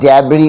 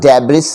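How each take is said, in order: First: The word ends without an s sound. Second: The word ends with an audible s sound. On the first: The speaker calls it right. "एस यहाँ पे silent है" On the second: The speaker calls it wrong. "इसको डेब्रिस नहीं पढ़ना है"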